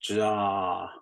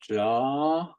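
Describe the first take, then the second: First: The long vowel is said on a low pitch. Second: The long vowel is said on a high pitch. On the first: "the long sounds" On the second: "High tone"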